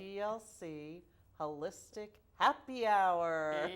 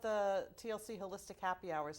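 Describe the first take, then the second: First: It is said slowly and deliberately. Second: It is said at normal conversational speed.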